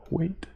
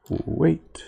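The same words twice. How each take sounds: First: Automated crosswalk signal voice; crossing guard voice. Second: Said in the usual way. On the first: Retold or imitated. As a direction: announce it like a robotic crosswalk. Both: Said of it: "Sound like one of those crossing guard automated voice".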